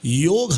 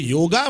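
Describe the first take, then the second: First: The word ends on the consonant, no final vowel. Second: The word ends with a final 'a' vowel. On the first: The speaker calls it right. "योग हा शब्द आहे" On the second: The speaker calls it wrong. "यापुढे योगा म्हणू नका"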